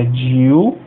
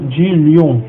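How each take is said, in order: First: Dil said slowly, L split from the H that follows; slow, clear dil, stopping after the L; separated dil. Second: Dilium said wrong, L and H run together as one sound; the wrong way, dilium blended; mispronounced dilium, l-h merged. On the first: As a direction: dil spoken apart, L kept separate from H. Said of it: "O H a gente pronuncia". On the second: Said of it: "a gente separa o L do H". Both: Shown as a demonstration.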